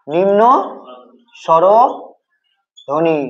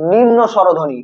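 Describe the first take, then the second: First: নিম্ন, long pause, then স্বরধ্বনি in broken pieces; slow dictation. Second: Said in the usual way. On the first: Shown as a demonstration. Teacher dictates term word by word. (নিম্ন স্বরধ্বনি থেমে থেমে, ধীরে)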